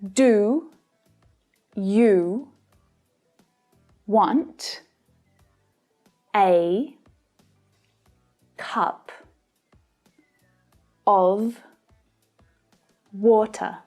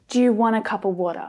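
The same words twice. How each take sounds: First: Each word is said with its full vowels. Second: Many vowels are reduced to a lazy schwa. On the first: "they should be pronounced like this" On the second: "more likely to hear a native English speaker say something like"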